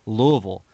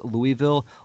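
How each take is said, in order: First: It is said the local Louisville, Kentucky way. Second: It is said the standard, fully spelled-out way.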